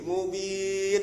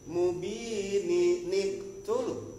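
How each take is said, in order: First: The word stops at the end, with nothing joined. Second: An added n sound links it into the next word. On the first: The reciter pauses at the end of the verse. "Kalau kita kan berhenti nih, mubin wakop ya" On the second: The reciter joins the verse to the next one. "Kalau kita mau bacanya wasol, maka ini nun kecil berfungsi. Nyambung"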